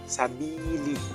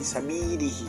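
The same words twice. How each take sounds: First: The kasrah vowel is pronounced full and clear. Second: The kasrah vowel is pronounced weak and incomplete. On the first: The speaker calls it right. "sabi sabili kayak gitu" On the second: The speaker calls it wrong. "Bukan kata sabili sabili"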